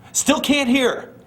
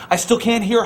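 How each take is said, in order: First: Higher and slow, dragging each word; slow emphatic repeat. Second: Said in the usual way. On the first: Acted. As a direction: stretch it out to hammer it home. Repeats the line slowly, higher.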